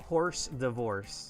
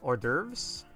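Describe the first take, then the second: First: It sounds like the words 'horse divorce'. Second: It sounds like 'or-durvz' with no h. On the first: The speaker calls it wrong. "It's not horse divorce" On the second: The speaker calls it right. "It's um, hors d'oeuvres"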